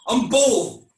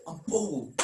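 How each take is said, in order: First: Much louder, forced claim; Aaron insisting on his tough identity, louder; defiant. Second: Much softer, sinking claim; Aaron quietly, doubting himself; deflated. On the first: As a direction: puff up and insist on it. Forced self-assertion. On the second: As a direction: say your name like you no longer believe it. Deflated self-assertion. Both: Acted.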